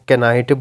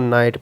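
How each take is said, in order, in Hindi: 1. इस शब्द की शुरुआत k ध्वनि से होती है। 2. इस शब्द की शुरुआत n ध्वनि से होती है। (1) "वो बंदा जिसको नहीं पता वो ऑब्वियसली चांसेस है कि इसको कैनाइट बोल ले" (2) "जिसको फोनेटिक ट्रांसक्रिप्शन या साउंड्स का आइडिया है वो इसको नाइट पढ़ लेगा"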